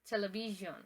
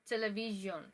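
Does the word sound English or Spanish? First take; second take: English; English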